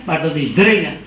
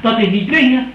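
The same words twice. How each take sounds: First: Dringen said lower with a firm falling stress. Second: Dwingen said with a firm falling stress, set against dringen. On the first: Preacher corrects dwingen to dringen with a lower stressed dringen. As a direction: land hard on dringen as the answer. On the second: Preacher sets dwingen against dringen with firm stress. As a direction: lean on dwingen to reject it. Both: Shown as a demonstration.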